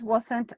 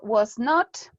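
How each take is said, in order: First: It is said as one contracted word. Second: It is said as two separate full words. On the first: "it's better to contract" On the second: "you can say as well was not"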